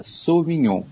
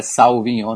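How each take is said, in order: First: Sauvignon opening with a pure "sô"; correct French pronunciation. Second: Sauvignon opening with a "sau" diphthong; wrong pronunciation. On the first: Expert corrects for listeners, Sauvignon with French "sô". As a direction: say Sauvignon as "sô-vi-nhon". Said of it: "não, é Sauvignon". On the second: Expert shows listeners the mistake, mispronouncing Sauvignon as "sau". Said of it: "Não é Sauvignon". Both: Shown as a demonstration.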